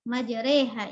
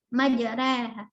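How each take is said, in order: First: The vowel after r is fronted toward e. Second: The vowel after r is between a and e. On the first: "Majreha imalah" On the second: "Warash bitaklil"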